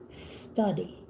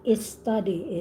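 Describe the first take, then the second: First: The word starts directly with the s sound. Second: An extra vowel is added before the s. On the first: The speaker calls it right. "it's study" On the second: The speaker calls it wrong. "It's not is study"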